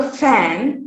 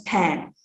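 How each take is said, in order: First: Said in the usual way. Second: "pan" said for fan; p replacing f. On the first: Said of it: "is pronounced as pan". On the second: Shown as a demonstration. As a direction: start "pan" with a p in place of f. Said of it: "fan is pronounced as pan".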